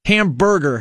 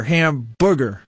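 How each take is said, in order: First: "hamburger" with a clear r-coloured BUR; standard pronunciation. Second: "hamburger" slowed, said as HAM-boo-ger; own mispronunciation. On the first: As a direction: say "hamburger" as HAM-bur-ger. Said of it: "or hamburger, hamburger". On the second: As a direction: say "hamburger" slowly with oo for ur. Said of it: "I say that one at home all the time". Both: Shown as a demonstration.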